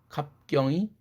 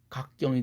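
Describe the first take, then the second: First: The first syllable ends in a p sound. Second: The first syllable ends in a k sound. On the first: "갑할 때 붓 사운드를" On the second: "고로 갑경이 각경이 되는 거죠"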